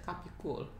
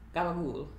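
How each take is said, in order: First: All syllables are said, ending in -cola. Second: Voiced first sounds, and the final vowel is dropped. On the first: This is how the word is written. "I think gabagool is spelled Capicola" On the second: This is how people actually say it. "it's the way people pronounce it"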